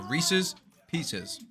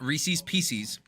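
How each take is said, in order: First: The second syllable of 'Reese's' sounds like 'sis'. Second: The second syllable of 'Reese's' sounds like 'sees'. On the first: The speaker calls it right. "Jack said it perfectly. It's a Reese's Pieces" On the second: The speaker calls it wrong. "not Reese's Pieces. Because what the hell is a piecey?"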